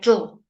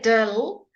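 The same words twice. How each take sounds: First: The consonant sound is said short and quick. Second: The consonant sound is drawn out long. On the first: The speaker calls it right. "It's a combination sound, dill. It's very quick" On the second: The speaker calls it wrong. "we don't go dill"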